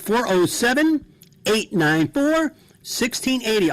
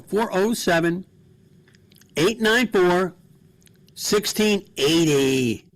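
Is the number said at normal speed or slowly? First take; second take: normal; slowly. First: The number is said at normal speed. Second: The number is said slowly.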